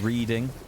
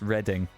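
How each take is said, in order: First: It is said like the everyday verb 'reading'. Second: It is said like the name of the town. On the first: The speaker calls it wrong. "People saying reading" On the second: The speaker calls it right. "That's the place. That's how you pronounce it"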